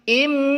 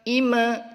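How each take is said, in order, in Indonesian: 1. Huruf m di akhir ditahan tanpa dilepas. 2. Huruf m di akhir dilepas dengan vokal. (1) "Tapi ... im" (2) "Bukan ... ima, ... bukan seperti itu"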